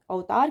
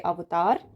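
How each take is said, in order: First: अवतार said as "au-taar"; wrong merged vowel. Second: अवतार said as "av-taar"; correct separate v. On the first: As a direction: blur the v into "au" in अवतार. (अवतार को "औतार" बोलें) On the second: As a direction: sound the v in अवतार. (अवतार में व साफ़ बोलें) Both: Shown as a demonstration. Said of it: "की जगह".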